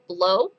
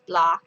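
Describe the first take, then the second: First: The vowel sounds like 'oh'. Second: The vowel sounds like 'ah'. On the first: The speaker calls it wrong. "many people I'm sure will say blow" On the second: The speaker calls it right. "apparently it's pronounced blah, not blow"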